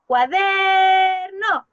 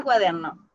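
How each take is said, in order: First: "Cuaderno" called like a runaway dog, long held DER, short NO; DER alargado en "Cuaderno". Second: Said in the usual way. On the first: Shown as a demonstration. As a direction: call out "Cuaderno" loudly, stretching the DER. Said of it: "¿Cuál es la sílaba que yo alargué?". ("Cuaderno" gritado como llamando al perrito, alargando DER) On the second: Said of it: "la sílaba que yo alargué".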